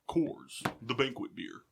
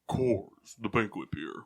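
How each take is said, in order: First: It is said in an ordinary speaking voice. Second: It is said in a deliberately deeper voice.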